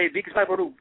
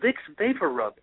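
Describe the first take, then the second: First: The name is said with Spanish-style pronunciation. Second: The name is said with English pronunciation. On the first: Relatives who spoke no English said it this way. "they would say Vicks Vaporub, and I would say, what?" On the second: This is what the product is really called. "And it was Vicks Vapor Rub"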